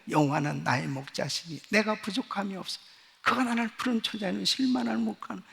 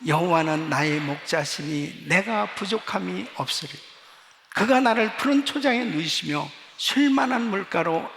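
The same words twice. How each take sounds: First: Softer, murmured recitation to oneself; quiet personal confession. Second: Loud, steady unison recitation of scripture; congregational reading. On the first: Retold or imitated. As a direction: confess the psalm privately, softly. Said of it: "매일 매 시간마다 고백을". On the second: Shown as a demonstration. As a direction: lead the church reading aloud. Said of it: "우리 한번 같이 읽겠습니다".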